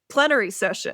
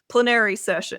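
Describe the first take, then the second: First: Plenary is said not rhyming with canary. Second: Plenary is said to rhyme with canary. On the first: The speaker calls it right. "no, plenary session" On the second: The speaker calls it wrong. "I always say it wrong"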